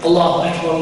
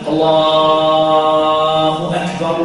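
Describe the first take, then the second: First: It is said quickly at a normal pace. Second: It is said slowly with elongated sounds. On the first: This is the call that directly precedes the prayer. "like this at normal speed" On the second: This is the call that announces the prayer time. "the adhan is long and slow"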